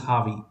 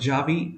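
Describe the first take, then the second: First: The name begins with an H sound. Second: The name begins with a J sound. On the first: The speaker calls it right. "J is generally pronounced as H over there. That's why it's Harvey" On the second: The speaker calls it wrong. "I used to call him Javi, and he had corrected me"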